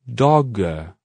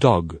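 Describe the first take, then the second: First: A long, exaggerated vowel follows the final g. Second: A very short vowel follows the final g. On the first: "We're going to say a longer sound to finish the words, much longer than it really sounds like in speech" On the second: "reducing the length of the vowel sound until it is really short, but still pronounced"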